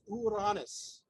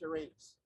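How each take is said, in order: First: The name is said the ancient Greek way. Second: The name is said the modern English way. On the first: This is the original ancient name. The speaker calls it right. "If you know your Greek, the word is Uranus" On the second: This is not what the ancients called it. The speaker calls it wrong. "nobody in the ancient world called the planet Uranus Uranus"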